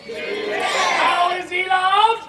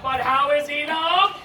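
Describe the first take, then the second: First: Very slow, high, loud rising question; huge drawn-out question. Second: Slow, louder question with rising end; building question. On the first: Narrator builds to how the king is loved, drawn-out call. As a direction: stretch every word to a big climax. Same question repeated, bigger. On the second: Narrator asks how the king is loved, slow build-up. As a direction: stretch it out and lift the end. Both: Acted.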